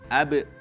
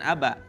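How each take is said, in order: First: The echo after b is a neutral vowel. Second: The echo after b is an open 'a'. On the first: The bounce is not coloured by the neighbouring vowel. The speaker calls it right. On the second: The bounce is coloured by the neighbouring vowel. The speaker calls it wrong.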